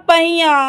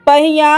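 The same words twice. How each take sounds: The two takes are said the same way.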